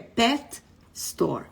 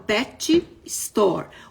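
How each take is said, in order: First: 'Pet' has one syllable, ending in a soft T. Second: 'Pet' has two syllables, with a vowel added. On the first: The speaker calls it right. "o T final, é soft, é bem leve" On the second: The speaker calls it wrong. "o brasileiro vai abrasileirar essa palavra pet store"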